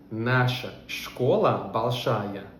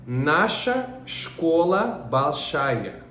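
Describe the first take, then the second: First: Said in the usual way. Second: Very slowly, word by word, for learners; Russian sentence spelled out slowly; very slow model reading. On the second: Shown as a demonstration. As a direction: read it out like a teacher dictating. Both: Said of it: "A nossa escola é grande".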